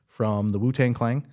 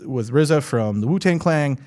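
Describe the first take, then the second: First: "[name]" with Clan said as "Clang", ending on ng; "Clan" slurred into "Clang"; mispronounced Clang. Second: "[name]" with Clan said as "Clang", tongue slipping; "Clan" coming out "Clang" again; numb from the dentist. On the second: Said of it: "Did it again". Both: Real, not acted.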